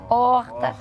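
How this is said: It has a Rio de Janeiro accent.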